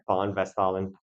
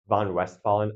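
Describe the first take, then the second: First: The first word starts with an F sound. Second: The first word starts with a V sound. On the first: "in German, V's are pronounced like F's, W's are pronounced like V's" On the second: "I'm not going to correct you"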